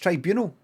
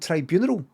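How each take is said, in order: First: It is said not rhyming with funeral. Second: It is said to rhyme with funeral. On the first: The speaker calls it right. "I've just found out it's tribunal" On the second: The speaker calls it wrong. "I thought I was hearing tribunal, like funeral"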